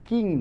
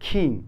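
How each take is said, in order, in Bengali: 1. k ধ্বনিটি বাতাসের ফুঁ ছাড়া বলা হয়। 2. k ধ্বনিটি বাতাসের ফুঁ দিয়ে বলা হয়।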